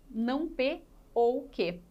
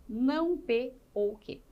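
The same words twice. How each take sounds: The two takes are said the same way.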